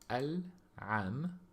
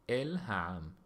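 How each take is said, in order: First: It is said with Samaritan Hebrew pronunciation. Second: It is said with Jewish Hebrew pronunciation. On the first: "in Samaritan Hebrew"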